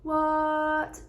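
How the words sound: The pitch stays high and level. Something is unbelievable. "The first tone"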